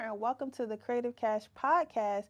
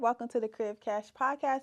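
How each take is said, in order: First: It is said slower and more clearly. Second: It is said fast and rushed.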